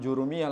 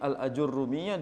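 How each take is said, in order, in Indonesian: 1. Nama itu dimulai langsung dengan suku kata 'ju'. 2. Nama itu dimulai dengan suku kata 'al-a'. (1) "dibilang Jurumiyah langsung" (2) "Padahal namanya Al-Ajurrumiyah"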